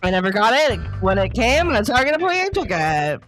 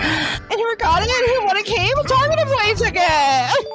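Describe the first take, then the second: First: It is said like a breaking news anchor. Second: It is said in a dramatic, theatrical style.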